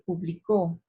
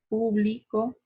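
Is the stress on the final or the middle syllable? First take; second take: final; middle. First: The stress falls on the final syllable. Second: The stress falls on the middle syllable. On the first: The action of publishing happened in the past. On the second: The action of publishing happens in the present.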